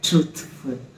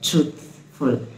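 First: The th lets air flow out. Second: The same.

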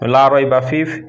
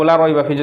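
First: The vowel of 'la' is held long. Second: The vowel of 'la' is kept short. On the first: There is no doubt in it. The speaker calls it right. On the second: There is certainly doubt in it. The speaker calls it wrong.

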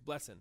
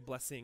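First: The word ends in -in without the g. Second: The word ends with a full -ing sound. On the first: "We take that G and throw it away. It's blessing" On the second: "We don't say blessing"

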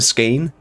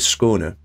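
First: The first vowel sounds like an 'a'. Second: The first vowel sounds like an 'o'. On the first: The speaker calls it wrong. "if you were calling it the Skåne" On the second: The speaker calls it right. "But it's actually Skåne"

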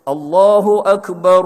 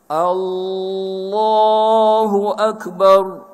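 First: The opening vowel of Allah is short. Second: The opening vowel of Allah is drawn out. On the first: The speaker calls it right. "hak nombor satu" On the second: The speaker calls it wrong. "dia panjangkan alif. Hamzah"

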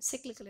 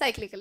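First: The word is said with an American pronunciation. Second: The word is said with a British pronunciation. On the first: "These days it's American English, which people believe in" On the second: "so British English is cyclical industry"

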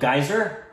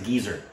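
First: The first vowel sounds like 'eye'. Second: The first vowel sounds like 'ee'. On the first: "it's called a geyser" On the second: "it's also pronounced as a geezer"

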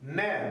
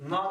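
First: The syllable is said with a thin vowel. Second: The syllable is said with a thick vowel. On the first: The speaker calls it right. "Bakın ne diyorum" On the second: The speaker calls it wrong. "Na demiyorum"

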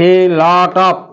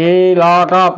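Both takes have the same delivery.

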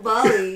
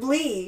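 First: The ending is said as two syllables. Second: The ending is said as one syllable. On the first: The speaker calls it wrong. "No, not Bali" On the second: The speaker calls it right. "It said Blee"

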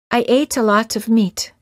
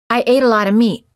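First: The Ts in 'ate a lot of' are clear Ts. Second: The Ts in 'ate a lot of' are quick tapped Ds. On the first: "The first sentence of each pair is pronounced with a foreign accent or a British accent" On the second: "The second sentence is an American sound"

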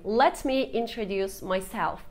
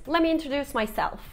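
First: "Let me" is said as two full words. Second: "Let me" is reduced to "lemme".

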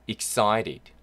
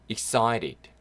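The two takes are said the same way.

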